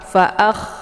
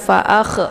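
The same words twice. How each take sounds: First: The kh sound flows on with a hissing breath. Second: The kh sound bounces with an extra vowel release. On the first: The speaker calls it right. "seperti orang ngorok" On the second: The speaker calls it wrong. "tidak boleh dibaca pantul, jangan"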